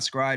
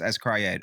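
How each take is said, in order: First: The name is said as one blended syllable. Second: The letter S is said separately before 'cryed'. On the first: The speaker calls it wrong. "it's not scried" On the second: The speaker calls it right. "It's S Cryed"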